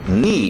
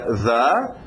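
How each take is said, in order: First: The word starts with an n sound. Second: The word starts with a th sound. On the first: "por causa da influência do N e do I, ficou agora cem por cento ni" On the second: "o que era the"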